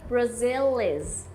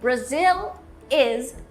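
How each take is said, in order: First: The L is linked straight into the next vowel. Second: The L is not linked to the next vowel.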